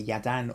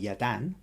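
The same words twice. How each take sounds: First: The stress is on the first syllable. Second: The stress is on the second syllable. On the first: "the emphasis is on the first" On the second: "or second syllable"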